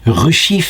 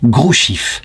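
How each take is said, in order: First: The name starts with an R sound. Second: The name starts with a G sound. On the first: The speaker calls it wrong. "je vois que Ruchif" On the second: The speaker calls it right. "ça se prononce en fait Grouchif"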